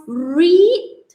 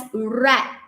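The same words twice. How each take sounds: First: "read" said like REED; long ee in "read", posed as a question; present-tense pronunciation. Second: "read" said like RED; short e in "read", as in red; past-tense pronunciation. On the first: Teacher testing the class on pronunciation, "read" as reed with rising question. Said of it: "how do you pronounce this word". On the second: Teacher giving the class the answer, "read" pronounced as red. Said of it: "we pronounce it as read". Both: Shown as a demonstration.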